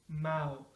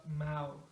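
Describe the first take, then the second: No difference in how they are said.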